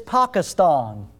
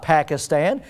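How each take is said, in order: First: "Pakistan" drawn out with ah vowels, PAHK-uh-stahn; slow, careful "Pakistan", both a's as "ah"; correcting pronunciation. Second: "Pakistan" with short a's, as in "pack" and "stan"; quoted Southern-style "Pakistan", both a's as in "cat"; pronunciation being rejected. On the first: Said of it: "one of the guys says". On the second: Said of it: "It's not Pakistan". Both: Retold or imitated.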